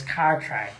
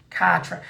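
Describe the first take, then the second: First: "Cartwright" with an American r; American accent. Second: Said in the usual way. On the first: Shown as a demonstration. Host showing the tour crew how Americans say it, American accent. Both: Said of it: "imagine you're saying it like an American".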